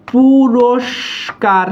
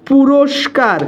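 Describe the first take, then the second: First: "পুরস্কার" stretched very slowly with a long sibilant; slow dictation-style "পুরস্কার"; drawn-out demonstration. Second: Said in the usual way. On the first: Shown as a demonstration. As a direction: linger on each part of "পুরস্কার", pausing before the last syllable. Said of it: "এই অ আসলে হচ্ছে". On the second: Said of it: "অ উচ্চারণ হচ্ছে না?".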